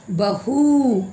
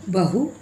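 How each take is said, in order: First: बहू with a high, sustained oo; long, lifted final oo in बहू; drawn-out long vowel. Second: बहू with a brief final u; short-u teaching take of बहू; short vowel. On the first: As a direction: drag out the end of बहू. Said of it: "खींच कर बोल रहे हैं". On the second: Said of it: "इसका soft sound होगा". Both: Shown as a demonstration.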